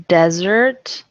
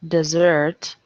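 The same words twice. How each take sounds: First: Desert as DEZ-ert, louder; noun desert. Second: Desert as dih-ZERT; verb desert. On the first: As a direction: say desert like sandy land. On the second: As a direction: say desert like to abandon. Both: Shown as a demonstration. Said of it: "homographs list".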